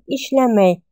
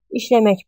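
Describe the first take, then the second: First: The word ends with a y sound. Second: The word ends with a k sound. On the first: "Но произносим как ишлемей" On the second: "Ишлемек пишем"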